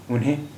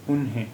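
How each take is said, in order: First: उन्हें said with a clear full n before the he; with a full n sound. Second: उन्हें said with a nasalized ending and no full n; nasal vowel. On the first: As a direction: say उन्हें as "un-hen", the n fully sounded. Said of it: "यानी ना की आवाज़ है उन्हें". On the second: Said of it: "और दूसरा है उन्हें". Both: Shown as a demonstration.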